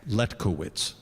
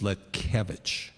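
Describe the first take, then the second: First: The name is said with an American pronunciation. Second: The name is said with a Polish pronunciation. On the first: This is how the name is said in America. "here in America" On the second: This is how the name is said in Poland. "the correct Polish pronunciation is"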